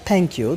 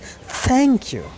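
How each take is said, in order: First: The first sound is an aspirated Hindi-like t. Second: The first sound is the English th sound. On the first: The speaker calls it wrong. "that is not thank you" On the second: The speaker calls it right. "that is thank you"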